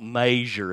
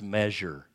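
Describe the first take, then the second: First: The word has a rural, countrified pronunciation. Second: The word has a standard, neutral pronunciation. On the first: The speaker calls it wrong. "it's not measure, there he goes again with the Hickville" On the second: The speaker calls it right. "it's measure"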